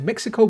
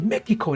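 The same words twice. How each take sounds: First: It is said with an English pronunciation. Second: It is said with a Spanish-style pronunciation. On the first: This is how people say it locally. "over here we say Mexico" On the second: This is how it is said in shows and films. "they always say Mexico and it just sounds so damn cool"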